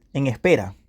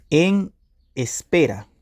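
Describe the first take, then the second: First: Said in the usual way. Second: Each word set apart by a pause; slow dictation. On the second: Shown as a demonstration. Repeats meaning slowly, as if dictating.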